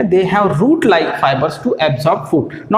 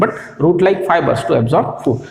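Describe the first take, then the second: First: Very slow, spaced words; slow dictation. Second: "but" pressed, rest slow; stress on but. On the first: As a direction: dictate it for the notebook. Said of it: "इसलिए उनको कहा गया". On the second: Teacher correcting that fibers are not roots, stressed. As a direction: lean on "but" to correct the idea. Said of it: "not actually root". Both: Shown as a demonstration.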